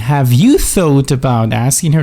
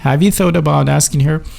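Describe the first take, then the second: First: Have you is said fully and carefully. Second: Have you is reduced and blended together. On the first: The speaker calls it wrong. "I'm not saying" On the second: The speaker calls it right. "I'm telling you"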